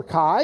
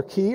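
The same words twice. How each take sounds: First: "chi" said as "kai"; "chi" with hard K and long i vowel; KAI pronunciation. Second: "chi" said as "kee"; "chi" with hard K and ee vowel; KEE pronunciation. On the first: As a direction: say "chi" to rhyme with "sky". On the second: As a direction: say "chi" with a long ee, like "key". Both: Shown as a demonstration. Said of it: "depending on how you tran-, uh, pronounce it".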